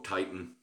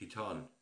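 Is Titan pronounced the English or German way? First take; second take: English; German. First: The name is said with an English pronunciation. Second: The name is said with a German pronunciation. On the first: It brings to mind a car model. "Always reminds me of the Nissan" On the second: It gives the product a vintage feel. "it's the German pronunciation"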